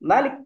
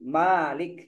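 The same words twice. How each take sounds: First: The first vowel is kept short. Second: The first vowel is held long. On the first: It means king. "mimnya dibaca pendek" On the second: It means owner. "mimnya dibaca panjang"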